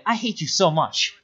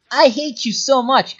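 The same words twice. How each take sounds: First: Said in the usual way. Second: Loud, high, slow and vehement; exasperated emphasis. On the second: Real, not acted. Telling the maddening player off, exasperated and emphatic. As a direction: drive each word home, higher and louder. Repeats line with more force.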